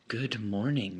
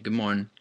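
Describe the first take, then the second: First: Both words are fully and clearly pronounced. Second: Good is cut short and morning is unclear. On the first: "We don't always say" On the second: "We don't finish the word good, and we don't say morning very clear"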